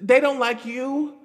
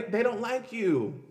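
First: DON'T LIKE YOU pitched high, loud and slow, rising at the end; loud, drawn-out "they don't like you", tune climbing; emphatic warning. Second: "they don't like you" slow and high, falling firmly at the end; drawn-out "they don't like you" with a closing fall; emphatic finality. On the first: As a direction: drive home "they don't like you" on a high, questioning rise. Emphatic warning about selling out. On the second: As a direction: repeat "they don't like you" as a settled fact, tune dropping. Same warning repeated with finality. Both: Real, not acted.

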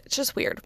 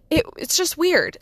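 First: Whispered, soft repeat of "It's just weird."; whispered aside. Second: Said in the usual way. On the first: Shown as a demonstration.

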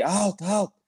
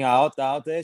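First: Alta, alta called out high, a mild mock call to a teammate; a goalkeeper's call, done lightly; calling out on the pitch. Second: Said in the usual way. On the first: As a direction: goalkeeper calls alta to the defender. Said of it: "eu falei". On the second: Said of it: "E pra mim".

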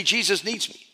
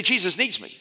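First: Said in the usual way. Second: "Jesus needs me" stressing needs with a firm fall; mean it, land on "needs"; said with conviction. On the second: Shown as a demonstration. Congregation repeating it back like they mean it. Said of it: "Say it like you mean it".

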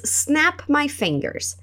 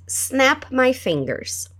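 First: Very slow and a bit soft; drawn out so learners can copy; slow teaching read; slow model phrase. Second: Very slow, a bit soft; slow echo model; slow repeat. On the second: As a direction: draw it out once more for them. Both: Shown as a demonstration.

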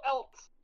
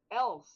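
First: "Else" said higher, ending with a hard t, like "elt"; imitating the weird else. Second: "Else" said with a clean s ending, no t; proper else. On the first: Teasing friend about pronunciation, "Else" as "elt". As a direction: mimic "Else" with an added t stop at the end. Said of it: "You go". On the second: Shown as a demonstration. Showing friend how to say else, "Else" with plain s. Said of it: "There's no else".

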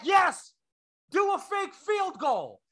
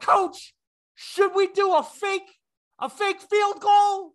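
First: High, drawn-out shouted answer; coach yelling back. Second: High, drawn-out shouted question; player yelling. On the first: Coach answering his player across the field, yelling back. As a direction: holler the order back, slow and high. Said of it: "he yelled back". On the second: Player asking his coach in full view, yelling. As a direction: holler it across the field, word by word. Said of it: "literally looked and yelled". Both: Acted.

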